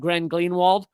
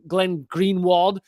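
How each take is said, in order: First: The name is said quickly and runs together. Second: The name is said at a normal pace.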